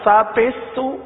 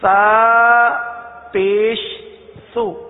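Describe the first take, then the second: First: The sounds are blurred and run together. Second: The sounds are clearly and separately articulated. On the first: The speaker calls it wrong. "اس طرح پڑھنا سا پیش سو، تو نہ سا کی ادائیگی صحیح ہوئی نہ پیش کی، خلط ملط ہو گیا" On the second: The speaker calls it right. "سنیے"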